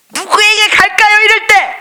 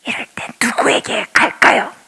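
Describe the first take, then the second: First: High, loud repeated question; same question, now thrown out loud. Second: Whispered question to the congregation; hushed question. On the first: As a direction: call it out to the whole church. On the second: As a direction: draw them in with a whisper. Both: Shown as a demonstration.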